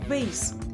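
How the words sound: The vowel is an ay sound, as in face. "American English, pronounced with an A sound like in face"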